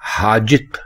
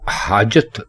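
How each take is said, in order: First: The second vowel is an 'i' sound. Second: The second vowel is an 'a' sound. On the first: The speaker calls it wrong. "हाजित गलत है" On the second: The speaker calls it right. "हाजत बिल्कुल दुरुस्त है"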